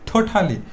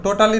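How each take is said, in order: First: The first t has a strong puff of breath. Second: The first t is plain, without a breath. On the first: The speaker calls it right. "ঠোঁটালি বলবো" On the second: The speaker calls it wrong. "টোটালি না বলে"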